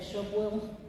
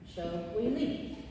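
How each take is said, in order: First: The syllables are run together into one word. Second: The three syllables are said separately and clearly.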